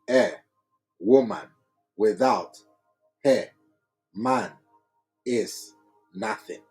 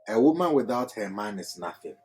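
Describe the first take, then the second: First: Each word is read separately, word by word. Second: The words are grouped in one flowing phrase. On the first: "Just reading word by word" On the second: "I read it in a certain flow"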